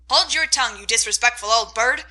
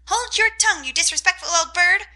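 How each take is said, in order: First: Aunt scolding parrot. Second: High, loud parrot parroting the scold; parrot mimicking. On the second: Parrot copying the aunt's scold, high squawk. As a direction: squawk the words back like a parrot. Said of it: "cried Polly". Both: A narrator's reading.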